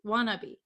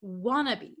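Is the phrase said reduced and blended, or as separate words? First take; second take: reduced; reduced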